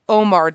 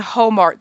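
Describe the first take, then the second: First: The word begins with a vowel, no H. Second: The word begins with an audible H sound. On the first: The speaker calls it right. "You'd say Anne Omar'd lobster" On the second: The speaker calls it wrong. "you don't say Anne Homart. That's not right"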